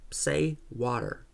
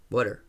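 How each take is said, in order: First: Put-on slow, drawn-out old man asking for water; Jack's own water. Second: Put-on New Jersey accent on Water, r-coloured wɔtər. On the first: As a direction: say water slowly, in the old man's voice, as a test. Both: A narrator's reading.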